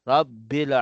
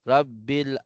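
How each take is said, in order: Both takes have the same delivery.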